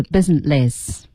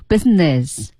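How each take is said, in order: First: "businessless" as biz-in-less, l replacing n; n turned to l. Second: "business" with a clear n in the last syllable; n before -ess. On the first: Coach mimics student's slip, "businessless" with l for n. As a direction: end "businessless" in -less where -ness belongs. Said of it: "不是businessless". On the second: Coach corrects student, "business" with n kept. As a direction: say "business" ending in -ness. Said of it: "注意一下呢了的发音". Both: Shown as a demonstration.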